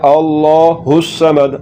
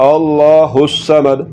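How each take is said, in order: Both takes have the same delivery.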